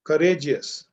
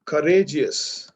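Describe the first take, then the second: First: Said in the usual way. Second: Courageous drawn out slowly and clearly; slow model word. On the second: Shown as a demonstration. Teacher slowly models courageous for the class. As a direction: say courageous slowly, one syllable at a time. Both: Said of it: "Do I say courageouser".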